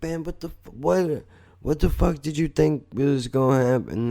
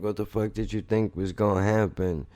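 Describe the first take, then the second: First: High incredulous retold rant; incredulous outburst. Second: Said in the usual way. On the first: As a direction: pitch jumps high, a mock-exasperated cry. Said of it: "And I was like". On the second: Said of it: "I said to Jen".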